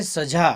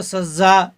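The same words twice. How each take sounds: First: सजा with a plain Hindi ज; सजा said without nukta, ज as j; plain j sound. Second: सजा with a buzzing z for ज़; nukta z sound. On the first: Hindi teacher contrasting सजा without nukta. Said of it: "लेकिन नुक्ता लगाए तो सजा". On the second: Hindi teacher showing सजा with nukta, z sound. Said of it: "नुक्ता लगाए तो सजा दंड हो जाता है". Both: Shown as a demonstration.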